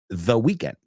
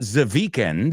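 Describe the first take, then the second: First: The word 'the' is said with a standard accent. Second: The word 'the' is said with a German accent. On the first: The speaker calls it right. "it's the weekend" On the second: The speaker calls it wrong. "mistakes that the Germans, see, the instead of the"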